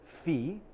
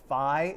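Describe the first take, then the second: First: It is said with the Greek pronunciation. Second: It is said with an informal pronunciation. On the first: The speaker calls it right. "the proper Greek pronunciation of the Greek letter is phi" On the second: The speaker calls it wrong. "pronounced as phi in a sort of like more informal like way. Or incorrect way"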